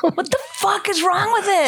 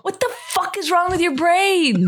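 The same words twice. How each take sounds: First: Laughing exasperation; incredulous through laughter. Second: High exasperated outburst; incredulous, pitched way up; exasperated yell. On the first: Repeats it laughing. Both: Real, not acted.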